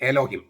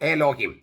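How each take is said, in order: First: The first vowel is an e sound. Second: The first vowel is an e sound.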